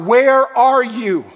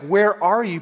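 First: It sounds longing, like crying out for someone. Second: It sounds annoyed, like searching for something lost.

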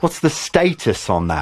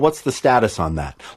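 First: It is said in a British accent. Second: It is said in an American accent.

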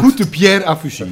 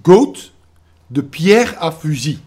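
First: The first word has an 'oo' vowel. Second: The first word has an 'oh' vowel. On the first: The speaker calls it right. "Goed moet ik zeggen" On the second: The speaker calls it wrong. "Ik zeg niet goat"

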